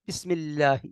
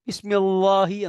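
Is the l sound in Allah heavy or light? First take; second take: light; heavy. First: The l sound is light and thin. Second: The l sound is heavy and full. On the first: The speaker calls it right. "ഇതാണ് തർക്കീഖ്, നേരിയതാക്കുക" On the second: The speaker calls it wrong. "എന്ന് ഓതൂല, ഓതാൻ പാടില്ല"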